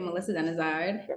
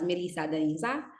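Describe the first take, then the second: First: The surname is said the American way. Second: The surname is said the original, non-American way. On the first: This is how people in America say it. "in America we say" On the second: This is the name's true pronunciation. "it's actually pronounced as"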